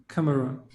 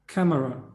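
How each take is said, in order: No difference in how they are said.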